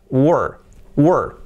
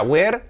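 First: WERE as wur, one long central r-vowel, falling; careful model WERE; correct pronunciation. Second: WERE said as weh-r with an open e, rising; learner's mistaken WERE; mispronounced were. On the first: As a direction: hold WERE on the er sound. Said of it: "no, era were". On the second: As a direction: give WERE a Spanish-style e. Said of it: "no era were". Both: Shown as a demonstration.

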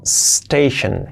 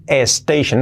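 First: "station" opening on a long bare s; slow "station", SSS-tei-shen; correct pronunciation. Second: "station" as es-TEI-shen; wrong leading e. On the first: Teacher corrects the extra vowel: "station" starting on pure s. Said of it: "una E antes, no". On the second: Teacher warns learners: "station" with an extra e in front. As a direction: put an e before "station". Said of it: "no, una E antes". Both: Shown as a demonstration.

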